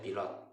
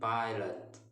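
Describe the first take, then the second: First: It is said with Indonesian vowels and stress. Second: It is said with English vowels and stress. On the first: "Dalam bahasa Indonesia pilot" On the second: "dalam bahasa Inggris disebut"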